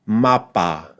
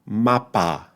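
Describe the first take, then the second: First: The final vowel is a full, clear 'a'. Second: The final vowel is a full, clear 'a'.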